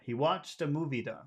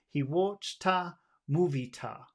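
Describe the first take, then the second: First: The t sound is softened toward a d. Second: The t sound is pronounced strongly and crisply. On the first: "So in North America, my accent, it would be da" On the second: "a person speaking standard British English would say"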